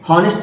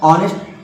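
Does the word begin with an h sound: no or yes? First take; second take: yes; no. First: The word starts with a clear h sound. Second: The word starts with a vowel, no h sound. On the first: The speaker calls it wrong. "हॉनेस्ट थोड़ी पढ़ा जाता है" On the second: The speaker calls it right. "इसको पढ़ा क्या था, ऑनेस्ट"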